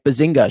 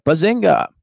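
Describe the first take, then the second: First: Said in the usual way. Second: A livelier Bazinga, pitched up; imitating Alexa's Bazinga. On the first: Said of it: "if you say something like". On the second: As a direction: bounce Bazinga like a playful assistant. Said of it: "she'll be like".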